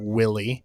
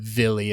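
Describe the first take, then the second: First: The name is given an English pronunciation. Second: The name is given a German pronunciation. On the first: The speaker calls it wrong. "and not Willie" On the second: The speaker calls it right. "I think she's German, so I'm going to go with Villi"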